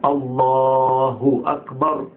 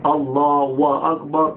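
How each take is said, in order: First: Slow chanted الله أكبر with a clear "hu" after الله; correct damma on ha. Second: Slow الله أكبر with "wa" in place of the "hu"; wrong linking sound. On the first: Teacher modelling the corrected call to prayer, careful pronunciation. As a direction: draw out الله as "Allaaa-hu", then أكبر. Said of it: "لا، هو". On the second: Teacher repeating the mistake to warn against it, mispronounced chant. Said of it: "بقى فيه واو". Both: Shown as a demonstration.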